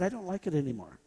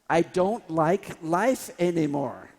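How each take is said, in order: First: It is said at normal volume. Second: It is said loudly and grandly.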